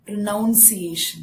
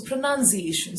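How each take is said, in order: First: PRONUNCIATION said pro-NOUN-see-ay-shun; mispronunciation. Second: PRONUNCIATION said pruh-nun-see-AY-shun; correct pronunciation. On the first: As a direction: misread PRONUNCIATION with 'noun' in the middle. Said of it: "That is wrong". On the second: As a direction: say PRONUNCIATION with 'nun', stressing 'AY'. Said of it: "see the way I'm stressing". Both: Shown as a demonstration.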